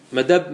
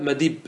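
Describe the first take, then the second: First: First مدب said "madabb", with an a; fatha form. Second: Second مدب said "madibb", with an i; kasra form. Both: Shown as a demonstration. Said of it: "ما ورد بالوجهين".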